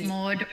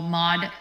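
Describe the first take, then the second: First: The vowel is a rounded Australian 'aw' sound. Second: The vowel sounds like the 'o' in 'mod'. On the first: "It's Maud" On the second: "When Americans say my name, it sounds like it's M O D"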